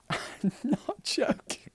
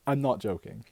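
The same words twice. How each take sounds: First: High, slow words through giggles; laughing. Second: Said in the usual way. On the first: Real, not acted. Swearing the bartender story is true, laughing. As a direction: break up laughing mid-insistence. Cracks up while insisting.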